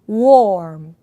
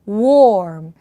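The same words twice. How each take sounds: The two takes are said the same way.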